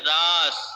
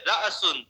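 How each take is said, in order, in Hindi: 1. स्वर बिना किसी रुकावट के सहजता से बहता है। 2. तेज़ ग्लॉटल कैच स्वर को तोड़ देता है। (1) "जबान के झटके के बगैर उसको सीधा सा बिल्कुल पढ़ेंगे" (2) "हम उसकी अदायगी में जबान पर झटका दे रहे हैं"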